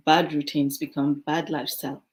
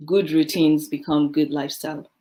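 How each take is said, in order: First: A firm, emphatic maxim; stress on bad. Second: Good and good each hit firmly; a firm, emphatic maxim; stress on good. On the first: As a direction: lean into the word bad as the flip side. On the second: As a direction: lean into the word good to make the point. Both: Shown as a demonstration. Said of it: "put it simply".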